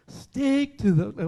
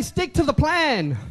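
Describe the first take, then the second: First: Chanted, slow sing-song schoolkid recital; chanted, drag it out like bored pupils; mock classroom chant. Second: Louder, firm declaration; proper call. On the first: Chanted, preacher mocking the congregation's schoolroom drone. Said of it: "you sounded like a school classroom". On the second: Shown as a demonstration. Preacher showing the congregation how, firm and louder. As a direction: say it with conviction.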